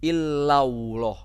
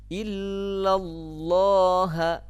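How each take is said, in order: First: The L sound drifts toward a W sound. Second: A thick, heavy L sound is pronounced. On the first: The speaker calls it wrong. "bukan begini. ... Bukan illau, bukan ke waw" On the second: The speaker calls it right. "Membacanya ditebalkan"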